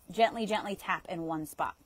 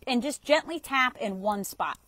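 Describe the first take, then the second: First: A touch softer, easing "Gently, gently" down; calm soft coaching; gentle, soothing. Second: Said in the usual way. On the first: Shown as a demonstration. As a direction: soothe the listener as you repeat "gently".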